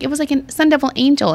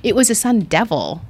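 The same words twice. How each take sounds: First: High, gushing retold wonder. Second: Understated retold put-down; matter-of-fact correction. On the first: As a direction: share it like a little miracle. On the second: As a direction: correct the gushing with plain fact. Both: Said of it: "And she's like".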